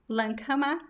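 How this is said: The name is said with a German pronunciation. This is the original pronunciation. "the original pronunciation is actually in German"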